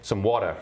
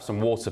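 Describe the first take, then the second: First: Water is said with an American accent. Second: Water is said with a southern British accent. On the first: The way the speaker adapts so American waiters understand. "eventually I have to say" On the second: The speaker's natural way, which American waiters misunderstand. "strong southern accent. You say water here in America"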